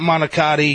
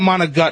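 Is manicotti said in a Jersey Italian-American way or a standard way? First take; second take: standard; Jersey. First: It has a standard American pronunciation. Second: It has a Jersey Italian-American pronunciation. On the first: This is the version the speaker does not want. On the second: This is the version the speaker wants. "I want"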